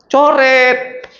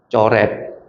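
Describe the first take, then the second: First: High, firm repeat of the word Coret; loud answer. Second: Said in the usual way. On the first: Shown as a demonstration. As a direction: call out Coret clearly and high. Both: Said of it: "Langsung apa?".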